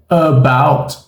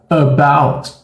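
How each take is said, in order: No difference in how they are said.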